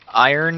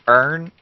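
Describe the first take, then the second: First: It is said with two syllables, eye-urn. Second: It is said as one syllable, urn.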